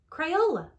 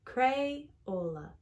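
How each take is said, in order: First: Crayola said higher and louder, with a proud falling finish; excited repeat. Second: Said in the usual way. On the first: Acted. Alice announces the name, repeating it with excitement. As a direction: proclaim the name the second time with delight. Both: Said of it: "She said".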